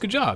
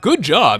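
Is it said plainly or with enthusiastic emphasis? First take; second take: plainly; enthusiastic emphasis. First: It is said plainly, without special emphasis. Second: It is said with strong, enthusiastic, odd emphasis.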